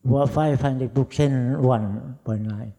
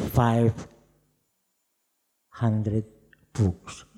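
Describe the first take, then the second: First: "five hundred books" stretched very slowly and much louder, rising on "five"; drawn-out emphasis. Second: Five, hundred, books set apart by long pauses; "five" "hundred" "books" dropped one at a time, each punched louder; spaced-out emphasis. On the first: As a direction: lean hard on "five", slow and loud. Repeats the number to stress it. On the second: Boasting of signing many books. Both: Real, not acted.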